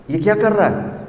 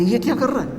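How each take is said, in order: First: High, wondering mother's voice; amazed mother. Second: Said in the usual way. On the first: Retold or imitated. Mother lifting her newborn, asking in high wonder. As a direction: marvel at the baby like his mother.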